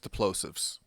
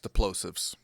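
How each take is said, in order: First: The p in plosives makes no popping burst. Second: The p in plosives makes a popping burst. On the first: The speaker calls it right. "with the windscreen on, it wasn't" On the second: The speaker calls it wrong. "the word plosive was getting a pop without the windscreen"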